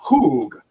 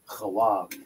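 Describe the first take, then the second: First: The word has one long 'oo' vowel. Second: The word has two syllables, 'ha' and 'wag'. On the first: The speaker calls it wrong. "it's not hoog" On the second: The speaker calls it right. "it's ha wa wa wa ga hawag"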